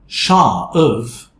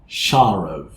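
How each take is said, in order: First: The words join with no r sound between. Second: An r sound links the two words. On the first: "instead of saying Shah of" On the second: "we say Sharov"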